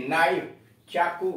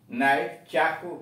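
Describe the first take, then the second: No difference in how they are said.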